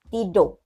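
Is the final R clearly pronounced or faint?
faint. A Malaysian accent with a faint final R. "Kalau orang Malaysia tidur"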